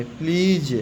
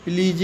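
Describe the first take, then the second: First: "प्लीज" as one long-ee syllable; silent final e. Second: "प्लीज" misread as "plee-jay"; wrong final e sounded. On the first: ("प्लीज" में अंत का ई silent रखकर) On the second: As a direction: voice an extra e after "प्लीज". ("प्लीज" को गलत तरह से "प्लीजे" बोलकर) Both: Shown as a demonstration. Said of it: "प्लीज नहीं पढ़ेंगे".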